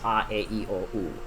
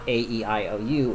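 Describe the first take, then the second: First: The vowels are said as Spanish vowel sounds. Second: The vowels are said as English letter names. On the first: The speaker calls it right. "as if you're speaking the vowels in Spanish" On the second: The speaker calls it wrong. "So it's not A E I O U"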